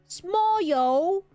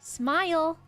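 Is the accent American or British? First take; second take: British; American. First: It is said in a British accent. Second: It is said in an American accent. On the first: The speaker calls it wrong. "Don't say it like this" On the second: The speaker calls it right. "I go"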